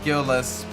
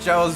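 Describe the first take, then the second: First: The name begins with a hard G sound. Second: The name begins with a soft G sound. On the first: "a hard, hard G, like it could be like Gilles" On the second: "it's a soft G"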